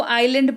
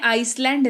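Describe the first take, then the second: First: आइलैंड said eye-land, the s silent; teacher models आइलैंड as eye-land; correct pronunciation. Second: आइसलैंड with a sounded s, ice-land; teacher shows the wrong reading आइसलैंड with the s sounded; wrong pronunciation. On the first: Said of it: "लेकिन इसको आइलैंड पढ़ते हैं". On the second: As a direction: say आइसलैंड as the spelling-based mistake, ice-land. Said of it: "नहीं पढ़ते हैं". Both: Shown as a demonstration.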